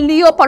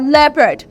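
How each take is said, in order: First: The first vowel is not a short e. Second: The first vowel is a short e. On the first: The speaker calls it wrong. "we don't say leopard" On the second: The speaker calls it right. "we say what? Leopard"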